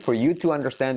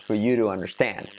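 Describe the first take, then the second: First: The T in 'to' is a clear, full T. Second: The T in 'to' is a soft flap.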